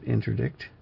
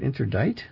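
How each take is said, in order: First: The word ends with a k sound before t. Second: The word ends in a t sound, with no k. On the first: The speaker calls it right. "I'm not sure if you pronounce it interdict" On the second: The speaker calls it wrong. "Is it interdite?"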